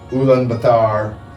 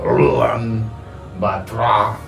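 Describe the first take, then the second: First: The opening syllable uses a plain L sound. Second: The opening syllable uses a rolled R sound. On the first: The speaker calls it wrong. "not the right pronunciation" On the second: The speaker calls it right. "the U L is kind of a rolling R into the An"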